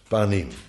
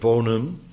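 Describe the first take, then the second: First: The first vowel is an open 'a' sound. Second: The first vowel is an 'o' sound. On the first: This is the Hebrew form of the word. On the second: This is the Yiddish form of the word.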